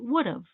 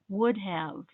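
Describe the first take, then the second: First: Have is reduced to a short 'of' sound. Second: The word have is pronounced in full. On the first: "When we talk, we say would have ... So it just sounds like of" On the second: "The correct word is have"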